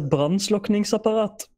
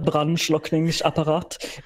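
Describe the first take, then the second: First: It is said with a Norwegian accent. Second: It is said with a German accent. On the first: The speaker calls it right. "It is a brandslukningsapparat" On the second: The speaker calls it wrong. "you have it with a German accent"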